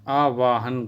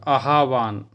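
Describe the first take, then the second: First: The word has three syllables, aa-vaa-han. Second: The word has two syllables, aah-vaan. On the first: The speaker calls it wrong. "गलत है" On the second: The speaker calls it right. "सही है"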